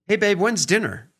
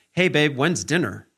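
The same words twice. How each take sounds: First: Higher, lifting, playful question; husband playfully asking his wife about dinner; light and playful. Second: Flatter, pressing, impatient question; husband pressing his wife about dinner, mildly demanding. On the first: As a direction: ask it lightly, curious not pushing. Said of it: "light and playful and, you know, inquisitive". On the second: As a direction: make it sound like he wants it now. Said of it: "Where is it? What's going on? Why aren't you done with this yet?". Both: Shown as a demonstration.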